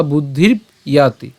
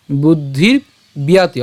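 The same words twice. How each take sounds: First: "বুদ্ধির ইয়াতি" with b closing the first part; split pronunciation. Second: "বুদ্ধির বিয়াতি" slow, second part begun with by; joined pronunciation. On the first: Teacher giving the other option, "বুদ্ধির ইয়াতি" as buddhirb, yaati. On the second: Teacher giving the first option, "বুদ্ধির বিয়াতি" with b carried into y. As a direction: say "বুদ্ধির বিয়াতি" as buddhir, byaati. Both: Shown as a demonstration. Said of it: "অথবা".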